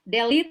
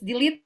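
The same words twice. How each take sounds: First: The last vowel is not a long ee. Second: The last vowel is a long ee sound. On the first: The speaker calls it wrong. "not delete" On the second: The speaker calls it right. "So it's delete"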